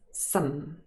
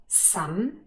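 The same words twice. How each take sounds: First: "some" unstressed, vowel reduced to schwa; unstressed weak form. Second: "some" stressed with full vowel, rising at the end; stressed full form. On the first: Teacher contrasting unstressed with stressed, weak form. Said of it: "if it is unstressed". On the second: Teacher contrasting stressed with unstressed, full form. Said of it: "So if it's stressed". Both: Shown as a demonstration.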